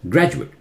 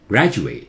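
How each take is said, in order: First: The final vowel is short. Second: The final vowel is drawn out long. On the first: It is a noun. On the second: It is a verb.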